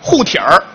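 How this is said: It is said in Beijing dialect.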